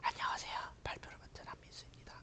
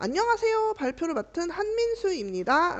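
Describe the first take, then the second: First: It is said in a very quiet voice. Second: It is said in a loud voice.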